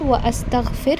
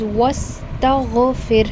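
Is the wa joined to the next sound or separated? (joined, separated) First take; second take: separated; joined. First: The wa is followed by a separate a sound. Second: The wa runs straight into the s sound. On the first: The speaker calls it wrong. "It is not wa astaghfir" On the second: The speaker calls it right. "It is wastaghfir"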